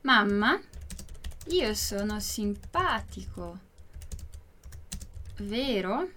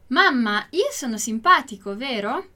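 First: Word by word with long pauses; slow, spaced-out demonstration for learners; slow model reading. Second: Said in the usual way. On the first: Shown as a demonstration. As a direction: dictate slowly, letting "vero" rise as a question. Teacher repeats it word by word.

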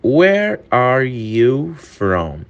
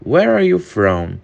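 First: Very slow, every word laid out for learners; slow, careful English model reading; slow demo. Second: Said in the usual way. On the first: Shown as a demonstration. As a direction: spell it out slowly for students. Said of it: "repeated at normal pace". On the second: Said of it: "slow take just before".

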